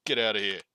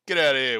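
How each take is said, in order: First: Mock shooing. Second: Louder mock shout to shoo the bird. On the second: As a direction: bellow it at the bird in jest. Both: Shooing the loud bird away.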